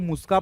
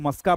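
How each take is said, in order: First: The first vowel sounds like 'oo' in 'put'. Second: The first vowel sounds like 'u' in 'cup'. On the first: "कोई इसको मुस्का पड़ेगा" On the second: "कोई इसको मस्का पड़ेगा"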